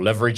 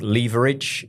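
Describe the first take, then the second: First: It is said in an American accent. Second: It is said in a British accent.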